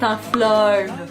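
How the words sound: The vowel is diphthongized, Québécois style.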